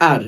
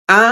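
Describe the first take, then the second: First: "আর" with the final r sounded; American R. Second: "আ" as an open ah with silent r; British R. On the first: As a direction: say "আর" the American way, ending on r. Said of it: "আর উচ্চারিত করে". (American ধাঁচে র-সহ "আর") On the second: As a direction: say "আ" the British way, no r at the end. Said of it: "ব্রিটিশরা এটাকে আ উচ্চারিত করে". (British ধাঁচে র ছাড়া "আ") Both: Shown as a demonstration.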